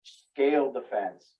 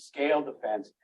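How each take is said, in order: First: "scaled the fence" drawn out slowly, leaning on "scaled" with a falling tune; slow stressed phrase. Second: Said in the usual way. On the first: Shown as a demonstration. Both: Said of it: "I say bank robber because".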